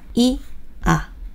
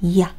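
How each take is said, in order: First: The two vowels are said slowly and apart. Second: The two vowels are said quickly as one.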